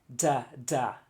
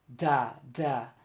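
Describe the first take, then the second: No difference in how they are said.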